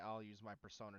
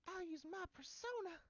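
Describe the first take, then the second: First: It is said in his normal voice. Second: It is said in Makoto's girl voice.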